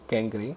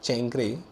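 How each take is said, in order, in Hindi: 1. यह शब्द k ध्वनि से शुरू होता है। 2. यह शब्द ch ध्वनि से शुरू होता है। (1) "ok कैंक्रे" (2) "it is not"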